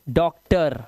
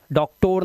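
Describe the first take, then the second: First: डॉक्टर said the English way, ending in a light "ter"; correct doctor. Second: डॉक्टर said with a full "tor" ending, like a spelling mistake; wrong doctor. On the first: Teacher shows students the right way: डॉक्टर ending "ter". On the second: Teacher mimics the students' mistake: डॉक्टर as "dok-tor". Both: Shown as a demonstration. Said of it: "डॉक्टर नहीं".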